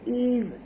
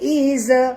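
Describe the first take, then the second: First: The final consonant is soft, without an echo. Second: The final consonant bounces with an echo. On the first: The speaker calls it right. "huruf zal ini mati tuan-puan, lembut" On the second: The speaker calls it wrong. "Jangan sebut iz, jangan lantunkan dia"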